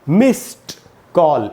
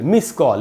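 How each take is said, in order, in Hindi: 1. 'miss' के बाद 't' की आवाज़ आती है। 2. 'miss' के बाद 't' की आवाज़ नहीं आती। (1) "मिस कॉल नहीं होगा" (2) "इसको लोग ऐसे बोलते हैं आजकल ... ये ईडी नहीं बोलते"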